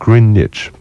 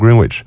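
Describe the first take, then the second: First: No w sound is heard in the middle. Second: A w sound is heard in the middle. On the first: The speaker calls it right. "你听英国人念是念Greenwich，那个W 是不发音的" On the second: The speaker calls it wrong. "很多人都把它念成Greenwich"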